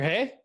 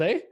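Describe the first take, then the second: First: The tag word begins with an h sound. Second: The tag word begins with no h sound. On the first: It is how people out west say it. "they say hey out here, not a. They add the h" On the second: It is how people in Ontario say it. "Whereas in Ontario, it'd be like"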